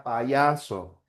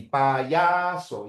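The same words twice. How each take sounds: First: Payaso slowly, the y as in ya; slow dictation. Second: Payaso said plainly, y as in ya; slow dictation. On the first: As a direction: stretch out payaso. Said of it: "Sería así". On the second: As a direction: say payaso clearly. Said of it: "la Y vale como una J". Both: Shown as a demonstration.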